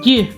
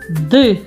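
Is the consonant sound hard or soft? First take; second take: soft; hard. First: The consonant is said soft, palatalized. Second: The consonant is said hard, without softening.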